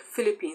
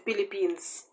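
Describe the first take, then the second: First: The word begins with an F sound. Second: The word begins with a P sound. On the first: "they would not say Philippines" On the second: "they would say Philippines"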